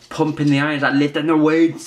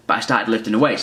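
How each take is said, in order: First: Put-on higher, louder Austrian bodybuilder accent; Arnold Schwarzenegger accent. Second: Said in the usual way. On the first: Telling viewers about lifting weights in a mock Austrian accent. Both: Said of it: "That's my Arnold Schwarzenegger accent".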